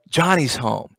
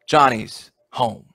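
First: It sounds glad and welcoming. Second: It sounds disappointed, with a sigh.

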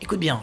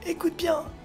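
First: It is said in a normal voice. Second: It is said in an old man's voice.

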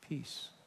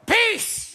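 First: It is said quietly and calmly. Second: It is said loudly and forcefully.

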